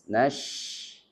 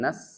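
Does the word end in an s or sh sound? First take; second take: sh; s. First: The word ends with an sh sound. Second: The word ends with a plain s sound. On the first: The speaker calls it right. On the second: The speaker calls it wrong.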